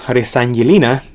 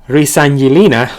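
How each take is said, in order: Both takes have the same delivery.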